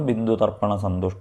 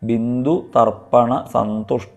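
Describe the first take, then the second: First: The words are joined together without breaks. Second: The words are said separately with breaks between.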